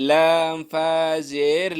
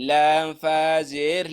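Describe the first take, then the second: No difference in how they are said.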